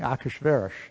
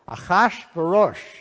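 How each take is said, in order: First: The stress falls on other syllables. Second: The stress is on the second and fourth syllables. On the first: The speaker calls it wrong. "but that's the wrong accent" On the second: The speaker calls it right. "the accent is on the second and fourth syllable"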